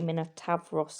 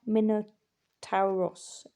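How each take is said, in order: First: The syllable after 'ta' has a 'v' sound. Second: The syllable after 'ta' has a vowel 'u' sound.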